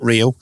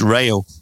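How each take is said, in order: First: The first vowel sounds like ee. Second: The first vowel sounds like ay. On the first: The speaker calls it wrong. "it's not Rio, as in the Duran Duran song" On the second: The speaker calls it right. "It's Rayo"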